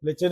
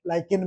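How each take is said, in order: First: The word is said with a 'ch' sound. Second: The word is said with a 'k' sound. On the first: This is how the speaker's teacher said it. "मैं तो लिचिन लिचिन इसलिए बोल रहा हूँ" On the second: Many other people say it this way. "लाइकिन भी बोलते हैं कई लोग"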